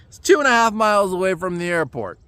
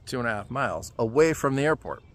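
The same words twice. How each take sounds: First: Said in the usual way. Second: Quieter, dropped-pitch echo of the distance; disbelieving repeat. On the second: Real, not acted. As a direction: mutter it back as if you can't believe it.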